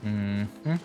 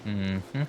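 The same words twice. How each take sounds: The two takes are said the same way.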